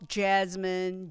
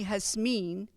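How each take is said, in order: First: The name begins with a J sound. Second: The name begins with an H sound. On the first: "Some of you call me Jasmine" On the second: "which is the pronunciation back home in the Philippines"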